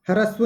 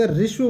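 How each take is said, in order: First: ह्रस्व split open as "ha-ra-sva", every letter sounded; wrong spelling-pronunciation. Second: ह्रस्व said as "rishva", the ह silent; correct pronunciation. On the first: Teacher to children, showing the wrong way: ह्रस्व as "harasva". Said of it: "ह्रस्व नहीं बोलते". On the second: Teacher to children, giving the right way: ह्रस्व as "rishva". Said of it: "ह्रस्व बोलते हैं". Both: Shown as a demonstration.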